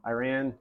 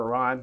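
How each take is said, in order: First: Iran with a long I and flat A as in "ran"; Iran as eye-RAN. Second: Iran with a short first vowel and open "ah"; Iran as ih-RAHN. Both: Shown as a demonstration. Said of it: "depending how you pronounce it".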